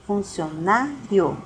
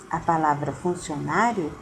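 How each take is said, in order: First: Funcionário said slowly with the i and o split into separate syllables, fun-ci-o-ná-rio; syllables split apart. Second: Said in the usual way. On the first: Shown as a demonstration. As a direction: pull funcionário apart, giving the i and the o a syllable each. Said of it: "quando você vai separar o i e o o". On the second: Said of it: "não separando".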